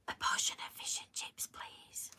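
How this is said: It is whispered very quietly.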